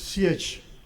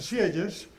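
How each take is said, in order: First: The name ends with a soft 'zh'-like sound. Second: The name ends with a 'yes'-like sound. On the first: "la pronunciación exacta me dice alguien que habla bien francés es Siege" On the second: "unos pronuncian Sieyes"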